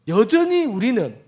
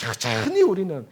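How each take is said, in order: First: 여전히 우리는 slow and loud, 여전히 pressed hard; stress on 여전히. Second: Said in the usual way. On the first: Shown as a demonstration. Preacher pressing 여전히 on the congregation, slow and loud. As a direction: lean slowly into 여전히 우리는 for weight. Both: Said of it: "restarted for emphasis".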